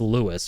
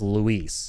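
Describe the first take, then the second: First: The name is said LOO-is, stress at the start. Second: The name is said loo-EES, stress on the end. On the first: The speaker calls it wrong. "maybe it's Lewis" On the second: The speaker calls it right. "I started saying his name as Luis"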